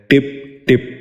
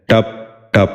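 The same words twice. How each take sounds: First: ٹپ ٹپ with short i, "tip tip"; short i in each ٹپ; mispronounced. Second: ٹپ ٹپ with short a, "tap tap"; short a in each ٹپ; correct pronunciation. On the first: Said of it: "یہ غلط تلفظ ہے". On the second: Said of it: "درست تلفظ ہے". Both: Shown as a demonstration.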